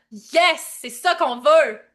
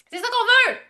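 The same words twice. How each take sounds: First: Loud, drawn-out approval; emphatic cheer. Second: High-pitched, excited cheer; excited squeal. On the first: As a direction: cheer it loudly, stretching it out. Cheering on the chat's answers. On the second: Repeats the cheer, higher. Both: Real, not acted.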